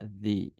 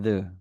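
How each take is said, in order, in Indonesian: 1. Bunyinya berakhir dengan vokal 'ee' yang panjang. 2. Bunyinya berakhir dengan vokal 'uh' yang pendek dan lemah. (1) "kalau vowel sound, dia akan dibaca the" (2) "Ketika dia diikuti konsonan sound B, C, D, dan seterusnya, maka dia akan dibaca the"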